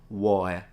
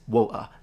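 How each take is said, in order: First: The middle T is simply left out. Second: The middle T becomes a glottal stop. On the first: The speaker calls it wrong. "It's not that they just don't pronounce the T, it's not water" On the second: The speaker calls it right. "It's water. There is a little tensing of the vocal cords"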